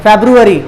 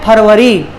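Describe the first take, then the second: First: फरवरी said English-style as "feb-ru-a-ree"; English pronunciation. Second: फरवरी said Hindi-style as "phar-va-ree"; Hindi pronunciation. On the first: English name before the Hindi one. (फरवरी का अंग्रेज़ी उच्चारण, "फ़ेब्रुअरी") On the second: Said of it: "Hindi में बोलते हैं". (फरवरी का हिंदी उच्चारण, "फर्-वरी") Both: Shown as a demonstration.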